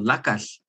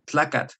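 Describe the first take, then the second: First: The word begins with an l sound. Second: The word begins with a tl sound. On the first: "the West Coast varieties that say L instead of that" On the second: "when people can't say the TL"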